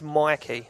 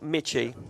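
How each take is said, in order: First: The middle consonant is a 'k' sound. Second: The middle consonant is a 'ch' sound. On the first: The speaker calls it right. "it's Mikey" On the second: The speaker calls it wrong. "It's not Mitchy"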